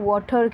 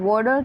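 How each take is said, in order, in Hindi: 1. यह शब्द British accent में कहा गया है। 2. यह शब्द अमेरिकन एक्सेंट में कहा गया है। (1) "ब्रिटिश एक्सेंट में इसको वाटर कहते हैं" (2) "अमेरिकन एक्सेंट में इसको वाटर कहते हैं"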